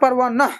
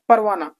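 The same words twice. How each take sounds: First: The final h sound is fully and clearly pronounced. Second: The final h sound is faint and hidden. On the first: The speaker calls it wrong. "परवाना ऐसा नहीं कह सकते, हा को पूरी तरह से हम नहीं पढ़ेंगे" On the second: The speaker calls it right. "बल्कि वो थोड़ा सा साउंड आएगा उसका और वो, वो छुपा रहेगा"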